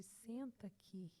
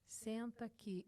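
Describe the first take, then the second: First: Soft, slow and tender; gentle, soft invitation. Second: Said in the usual way. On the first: Retold or imitated. God the Father inviting his daughter onto his lap, tender. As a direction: coax like a loving father. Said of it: "com uma voz suave". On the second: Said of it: "meigo, com uma voz suave".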